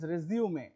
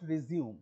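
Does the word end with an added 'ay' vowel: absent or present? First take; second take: present; absent. First: It ends with an added 'ay' vowel sound. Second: It ends on the 'oom' sound, no final vowel. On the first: The speaker calls it right. "It is রেজিউমে" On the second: The speaker calls it wrong. "Not রিজিউম"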